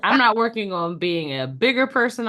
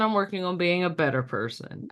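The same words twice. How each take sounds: First: Bigger said with slight emphasis against better; stress on bigger. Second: Better punched as the right word; stress on better. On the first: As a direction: lean on bigger as the wrong word. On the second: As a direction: hit better, let person fall. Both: Real, not acted.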